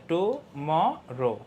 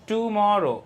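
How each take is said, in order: First: Very slow tomorrow in three separate beats; split into syllables. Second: Said in the usual way. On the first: Shown as a demonstration. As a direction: break tomorrow into টু, ম, রো. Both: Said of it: "এখানেও কিন্তু তিনটা".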